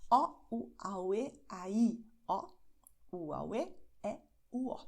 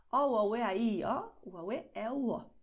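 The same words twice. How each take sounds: First: Vowels separated by little pauses; slower demonstration. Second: Vowel sentence run together briskly; string the vowels together without stopping; quick demonstration. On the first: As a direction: spell out the vowel sentence piece by piece. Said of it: "Eu vou repeti-la mais devagar". (mais devagar, vogais separadas) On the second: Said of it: "Eu falei bem rapidinho". (vogais ditas bem rapidinho) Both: Shown as a demonstration.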